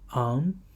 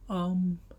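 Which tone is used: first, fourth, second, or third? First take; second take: second; first. First: The syllable is said with the second tone. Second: The syllable is said with the first tone.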